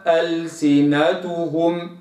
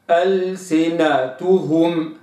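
First: ألسنتهم with a tilted damma; wrong reading. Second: ألسنتهم slow, clean u in each syllable; correct recitation. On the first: Teacher shows the mistake, tilted vowel. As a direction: mispronounce ألسنتهم with slack u. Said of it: "لا أقرأها ألسنتهم". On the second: Teacher models word for students, slow and precise. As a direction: say ألسنتهم slowly and exactly. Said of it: "ألسنتهم هكذا". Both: Shown as a demonstration.

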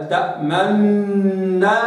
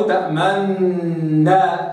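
First: Slow تأمنا with lips rounded on the noon; ishmam. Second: Slow تأمنا with a snatched damma; stolen damma. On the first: Teacher showing the ishmam variant. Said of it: "هكذا". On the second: Teacher showing the second variant. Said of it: "أو تأمنا هكذا". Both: Shown as a demonstration.

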